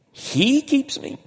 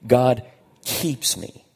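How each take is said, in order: First: "He" high, drawn out and questioning; astonished question, leaning slowly on "He"; stress on HE. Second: Said in the usual way. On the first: Shown as a demonstration. Preacher marvels at who does the keeping, "He" stressed high.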